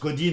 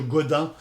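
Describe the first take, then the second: First: The name is pronounced the English way. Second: The name is pronounced the French way. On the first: "en anglais on prononce Godin" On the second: "facile à retenir en, en, en français, c'est monsieur Godin"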